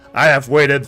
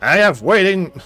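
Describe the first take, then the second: First: The voice is a more restrained villain voice. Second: The voice is a heavily exaggerated cartoon villain voice. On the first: The speaker calls it right. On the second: The speaker calls it wrong.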